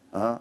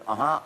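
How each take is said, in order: First: It sounds flat and uninterested. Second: It sounds engaged and responsive.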